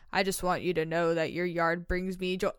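It is said in a judgy, disapproving voice. The speaker expects criticism to follow. The speaker calls it wrong.

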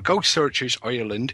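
It is said in a put-on Irish accent.

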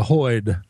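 The vowel is an 'oy' sound. "where those two accents both come up with the herd to hoyd"

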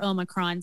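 It is said with an American pronunciation.

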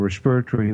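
It is said with a South African accent.

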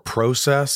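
It is said in a Canadian way.

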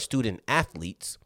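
The stress falls on the word athletes. "why'd I put emphasis on the athletes if I'm talking about the student"

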